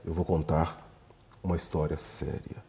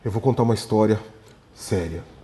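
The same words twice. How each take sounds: First: It is said with a grave, serious intonation. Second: It follows a pause and sounds more measured. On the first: The story is clearly serious. "se eu dou então a entonação correta" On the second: The story seems a little more serious. "eu parei um segundo e falei"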